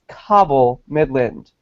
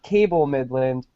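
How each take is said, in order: First: The first word sounds like 'cobble'. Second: The first word sounds like 'cable'. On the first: The speaker calls it right. "It's Cobble Midland" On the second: The speaker calls it wrong. "It's not Cable Midland"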